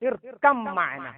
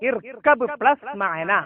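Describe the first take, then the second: First: The b merges into a doubled m sound. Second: A clear b sound ends the first word.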